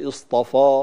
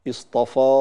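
Both takes have the same delivery.

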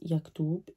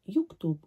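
First: The first vowel is an open a sound. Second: The first vowel is a rounded u sound. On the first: This is the standard form of the word. "would be pronounced yaktub in MSA" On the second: This is a dialect form of the word. "could be pronounced yuktub or yiktib in a dialect"

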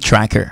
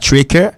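First: The vowel is pronounced as an 'a' sound. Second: The vowel is not pronounced as an 'a' sound. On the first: The speaker calls it right. "on dit tracker" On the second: The speaker calls it wrong. "On ne dit pas tracker"

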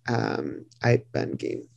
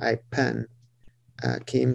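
First: The letter names use the classical consonant pronunciation. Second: The letter names use the Western Armenian consonant pronunciation. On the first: "if you're thinking classical or Kudapar" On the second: "it's according to Western pronunciation"

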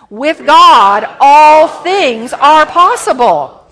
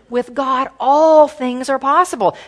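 First: It is said with more gusto and energy. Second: It is said calmly, without extra energy.

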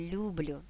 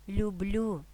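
First: The stress is on the first syllable. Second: The stress is on the last syllable. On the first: The speaker calls it wrong. "а не" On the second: The speaker calls it right. "здебільшого наголошуємо останній склад"

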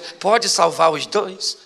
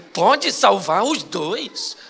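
First: It is asked in a plain, neutral tone. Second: It is asked in a doubtful, uncertain tone. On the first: The answer seems obviously yes. "Eu perguntei a primeira vez" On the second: The answer now seems uncertain. "Foi só eu trocar o tom"

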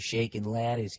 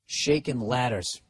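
First: It is read in a Boston accent. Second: It is read in the speaker's plain accent.

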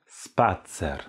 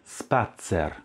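No difference in how they are said.

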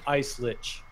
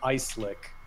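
First: The last word ends with a 'ch' sound. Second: The last word ends with a 'k' sound.

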